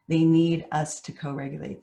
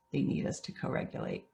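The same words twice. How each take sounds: First: Said in the usual way. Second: Breathy unvoiced repeat of the point; whispered. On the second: Real, not acted. Speaker repeating the key lesson to parents, whispered. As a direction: let it sink in with a whisper.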